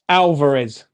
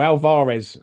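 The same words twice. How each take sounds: First: Alvarez with stress up front, AL-vuh-rez; first pronunciation of Alvarez. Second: Alvarez with stress in the middle, al-VAH-rez; alternative pronunciation of Alvarez. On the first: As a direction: say Alvarez with a weak, reduced middle syllable. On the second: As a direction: say Alvarez with a full, open AH in the middle. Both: Shown as a demonstration. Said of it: "however you wanna pronounce it".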